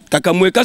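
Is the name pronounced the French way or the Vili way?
French. The name is pronounced the French way. "Kakamweka c'est français"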